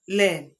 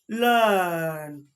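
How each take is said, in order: First: The vowel is not a long 'er' sound. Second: The vowel is a long 'er' sound. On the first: The speaker calls it wrong. "this is not learn" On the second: The speaker calls it right. "is learn"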